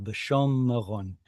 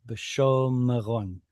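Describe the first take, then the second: First: B'shom Meron with the long o held, a break after it and a short vocal schwa before Meron; split syllables. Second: Said in the usual way. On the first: Shown as a demonstration. Teacher splits the syllables to show the vocal schwa, slowly. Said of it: "so I would split it right there, make that a vocal schwa".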